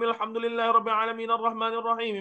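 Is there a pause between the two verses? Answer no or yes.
no. The verses run together without a stop. It is recited in one breath to impress. The speaker calls it wrong. "Fatihah senafah"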